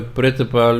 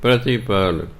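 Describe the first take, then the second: First: ਪ੍ਰਿਤਪਾਲ with a full sihari on the first syllable, pri-tpal; wrong pronunciation. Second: ਪ੍ਰਤਿਪਾਲ as prət-i-pal, light sihari on the t; correct pronunciation. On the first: Teacher shows the sangat the mistaken reading, pri-tpal. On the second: Teacher gives the sangat the correct reading, prət-i-pal. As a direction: say ਪ੍ਰਤਿਪਾਲ with a short, light i after t. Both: Shown as a demonstration. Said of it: "ਇਹਨੂੰ ਪ੍ਰਿਤਪਾਲ ਨਹੀਂ ਪੜ੍ਹਨਾ".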